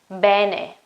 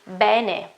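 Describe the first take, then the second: No difference in how they are said.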